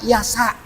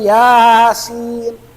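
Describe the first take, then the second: First: The letters are blended into one word, yasa. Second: Two letter names are said, ya and sin. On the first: The speaker calls it wrong. "Kalau dibaca Yasa. Hati-hati" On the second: The speaker calls it right. "disebutkan nama huruf apa"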